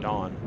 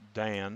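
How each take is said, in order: First: The vowel sounds like the one in 'father'. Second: The vowel sounds like the one in 'cat'. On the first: "or Don, depending upon how you wish to pronounce it" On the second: "depending upon how you wish to pronounce it"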